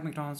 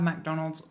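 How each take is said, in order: First: The first syllable is a reduced 'Muk'. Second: The first syllable sounds like 'Mac'.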